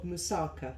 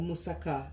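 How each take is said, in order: First: The word is pronounced the English way. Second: The word is pronounced the Greek way.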